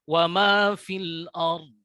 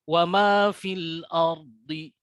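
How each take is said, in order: First: The last word ends on a consonant. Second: The last word ends on a vowel. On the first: The reciter stops here. "Di ujungnya ada huruf dod. Kita ulangi" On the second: The reciter continues into the next words. "Atau kita wasolkan, lanjutkan ya"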